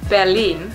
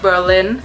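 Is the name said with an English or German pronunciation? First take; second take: German; English. First: The name is said with a German pronunciation. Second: The name is said with an English pronunciation. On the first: The speaker calls it right. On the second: The speaker calls it wrong.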